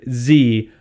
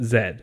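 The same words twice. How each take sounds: First: The letter name is said the American way. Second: The letter name is said the Canadian way. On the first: "Z like your yokel southerly neighbors" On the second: "up in Canada, we pronounce it Z"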